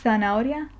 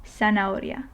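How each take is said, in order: First: Z in "Zanahoria," as TH in thing. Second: Z in "zanahoria." as an S, sana-oria. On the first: Teacher showing the resemblance to thing, "Zanahoria," with TH. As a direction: start "Zanahoria," on a th sound, thana-oria. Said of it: "thing, th". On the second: Teacher offering the easier option, "zanahoria." with S for Z. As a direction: start "zanahoria." on S instead of TH. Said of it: "you can use a more S-like sound". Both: Shown as a demonstration.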